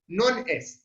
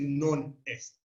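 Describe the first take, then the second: First: The two words run together without a break. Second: The two words are cut apart with a break. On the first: "Se junta, se junta como hacemos en español" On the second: "si uno escucha a un alemán hablando latín, va a decir"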